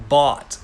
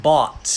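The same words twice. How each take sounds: First: Bought said very slowly, the "aw" vowel drawn out. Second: Bought with an "aw" vowel. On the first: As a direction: draw out bought with a long "aw". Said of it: "bought เสียงออ". (bought ช้าๆ ลากเสียงออยาว) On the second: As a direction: bought said loud, with a clear "aw" vowel and a falling tone. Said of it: "คำแรกนะครับ". (คำว่า bought ออกเสียงออ ชัดๆ) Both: Shown as a demonstration.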